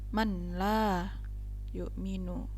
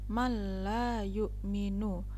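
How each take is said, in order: First: The n is pronounced clearly before the l. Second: The n merges into the l without nasal hum. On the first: The speaker calls it wrong. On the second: The speaker calls it right. "memasukkan huruf nun kepada lam namun tidak berdengung"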